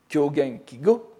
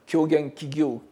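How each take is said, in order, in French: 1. Le deuxième mot se prononce avec un simple son 'go'. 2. Le deuxième mot se prononce avec un son 'gyo'.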